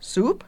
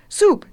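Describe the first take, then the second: First: "Soup" raised at the end as a question. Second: "Soup" high and loud, falling firmly; "Soup" punched as a definite answer; emphatic answer. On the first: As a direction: query "Soup" with a higher, rising voice. Witch queries the girl's demand. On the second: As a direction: confirm "Soup" with a strong falling tone. Girl confirms her demand. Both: A narrator's reading.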